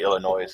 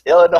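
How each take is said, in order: First: The final S sound is pronounced. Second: The final S sound is silent. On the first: The speaker calls it wrong. "I used to say Illinois because I, I didn't know any different" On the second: The speaker calls it right. "You're like, it's Illinois"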